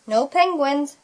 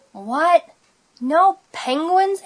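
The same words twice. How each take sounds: First: Firm statement, moderately raised pitch; teacher's confirming answer. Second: High, drawn-out disbelieving question; dismayed question. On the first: Teacher answering disappointed Splat, confirming statement. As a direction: state it as settled, not asked. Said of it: "said Missus Wimbley Dimple". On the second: Splat reading the closed-pool sign, dismayed question. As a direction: ask it slowly, pitched way up. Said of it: "asked Splat". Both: A narrator's reading.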